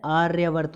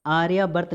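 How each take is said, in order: First: आर्यावर्त as "aar-ya-vart"; joined r-y. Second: आर्यावर्त broken as "aa-ri-yaa-bart"; wrong extra syllable. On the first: Teacher correcting students, joined "aarya" in आर्यावर्त. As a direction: run r straight into y in आर्यावर्त. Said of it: "होता है". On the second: Teacher showing the misspelling, "aariyaa" in आर्यावर्त. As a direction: put an i inside आर्यावर्त. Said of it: "नहीं होता है". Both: Shown as a demonstration.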